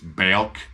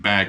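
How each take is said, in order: First: The vowel is drawn out and exaggerated. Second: The word is said with a plain vowel. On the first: "it's hammed up" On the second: "instead of saying back"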